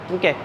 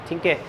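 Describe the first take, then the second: No difference in how they are said.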